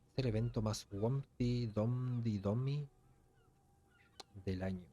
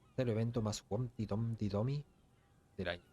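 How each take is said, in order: First: The sentence is said slowly. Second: The sentence is said fast.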